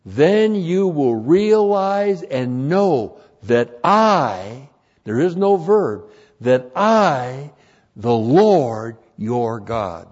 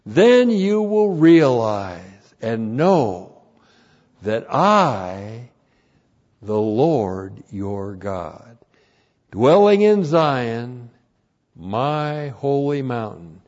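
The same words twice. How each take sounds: First: Slow and loud, pressing on "I"; emphatic literal rendering. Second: Slow and loud, each phrase set apart; emphatic corrected verse. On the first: Preacher giving the literal Hebrew, loud and slow. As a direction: lean on "I" as the Lord speaks. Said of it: "Literally, it says". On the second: Preacher reading his corrected translation, slow and loud. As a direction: proclaim it slowly, word by word. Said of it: "So the corrected translation". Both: Shown as a demonstration.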